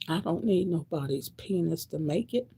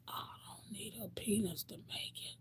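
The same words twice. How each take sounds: First: Said in the usual way. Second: Soft voiceless whisper; whispered take. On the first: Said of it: "first take". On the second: Real, not acted. To the audience, hushed private vow. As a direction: drop to a hush on the repeat. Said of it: "whispered repeat".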